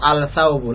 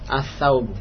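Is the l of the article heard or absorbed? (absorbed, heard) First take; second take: heard; absorbed. First: The l is clearly pronounced before the s. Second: The l merges into a doubled s sound. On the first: The speaker calls it wrong. "tidak antum baca ... al-saubu ... hadha khata" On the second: The speaker calls it right. "lamnya dimasukkan ke huruf setelahnya"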